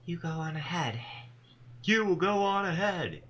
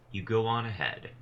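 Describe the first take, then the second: First: Strangely rhythmic voice. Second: Said in the usual way. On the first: Acted. Tall woman chants to the gathered Dustbound, strangely rhythmic. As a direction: intone it like an eerie ritual chant. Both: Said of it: "She begins to speak in a strangely rhythmic voice".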